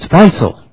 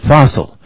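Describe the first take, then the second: First: The first vowel sounds like 'eye', as in Faisal. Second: The first vowel sounds like 'ah', as in fossil. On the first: This is how the name is said in Arabic. "that's not how you pronounce it in Arabic. It's Faisal" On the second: This is how the name's bearer says it. "he pronounces it Fossil"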